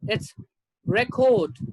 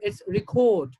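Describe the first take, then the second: First: The stress is on the first syllable. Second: The stress is on the second syllable. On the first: It is used as a noun. "As a noun" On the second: It is used as a verb. "As a verb"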